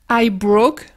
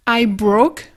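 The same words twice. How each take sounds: The two takes are said the same way.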